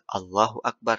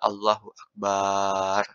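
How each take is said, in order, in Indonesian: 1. Tidak ada bunyi yang dipanjangkan atau digandakan. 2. Vokal setelah huruf b dipanjangkan. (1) "harus takbir" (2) "Dipanjangkan baknya nggak boleh"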